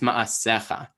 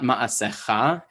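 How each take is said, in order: First: The stress falls before the final syllable. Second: The stress falls on the final syllable. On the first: The speaker calls it right. "it's ma'asecha" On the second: The speaker calls it wrong. "It's not ma'asecha"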